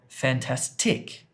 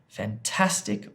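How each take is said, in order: First: The stress is on the third syllable. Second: The stress is on the second syllable. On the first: "or the third one" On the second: "the second one"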